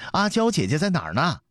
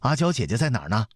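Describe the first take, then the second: First: Much higher, insistent second call; young prince calling. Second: Put-on quick, higher boy's call for his sister; young prince calling. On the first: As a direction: repeat the boy's call, pitched right up. (小太子高声再唤) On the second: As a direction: call out eagerly as the little prince. (小太子快声呼唤) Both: A narrator's reading. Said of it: "门外传来刘彻的声音".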